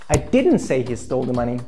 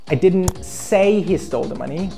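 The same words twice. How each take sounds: First: The stress falls on the word didn't. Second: The stress falls on the word say. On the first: The claim is denied outright. "That's totally wrong. I deny it" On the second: It was written, not spoken. "I wrote or I texted he stole the money"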